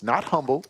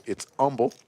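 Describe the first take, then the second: First: "humble" said with the h sounded; wrong pronunciation. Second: "humble" said as "umble", dropping the h; local pronunciation. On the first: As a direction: say "humble" as in humility, with the h. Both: Shown as a demonstration.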